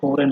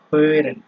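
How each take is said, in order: First: The first vowel is a plain back o. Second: The first vowel is a front rounded ö. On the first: The speaker calls it wrong. "এটা হোরেন হবে না" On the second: The speaker calls it right. "উচ্চারণ তো বলে দিচ্ছি"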